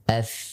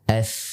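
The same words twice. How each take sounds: First: The consonant sound flows on continuously. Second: The consonant sound flows on continuously.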